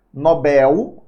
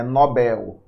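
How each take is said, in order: First: "Nobel" stressed on the first syllable, NÓ-bel; mispronounced "Nobel" as NÓ-bel; wrong stress, NÓbel. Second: "Nobel" stressed on the last syllable, no-BÉL; "Nobel" as an oxytone, weight on bel; correct stress, noBÉL. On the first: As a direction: say "Nobel" with the weight on NO, unstressed bel. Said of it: "Nobel não é Nobel". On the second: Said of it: "é Nobel". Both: Shown as a demonstration.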